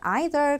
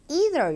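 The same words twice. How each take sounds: First: It is said in a British accent. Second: It is said in an American accent.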